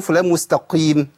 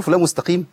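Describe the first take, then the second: First: فلان مستقيم with thick, drawn qi; heavy qaf. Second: Said in the usual way. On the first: Shown as a demonstration. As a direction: puff up the ق of مستقيم in an everyday phrase. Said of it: "ولا بقول فلان مستقيم؟". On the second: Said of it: "في الكلام العادي".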